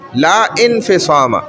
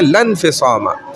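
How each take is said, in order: First: The hamza vowel before 'infisama' is sounded separately. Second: The hamza is silent and the words run together. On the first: "असल में क्या है कि ला इनफिसामा" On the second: "Quran में हम पढ़ते हैं लन फिसामा, और ये अलिफ को हम वसल कर देते हैं"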